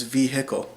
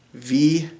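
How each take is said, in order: First: "vehicle" with the h sounded, vee-hick-ul; Iowa vehicle. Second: "V-a-col" said with no h, vee-uh-col, Minnesota style; Minnesota vehicle. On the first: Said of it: "in Iowa is pronounced". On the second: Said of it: "I'm pronouncing it vehicle". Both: Shown as a demonstration.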